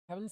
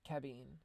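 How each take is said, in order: First: The middle consonant is a V sound. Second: The middle consonant is a B sound.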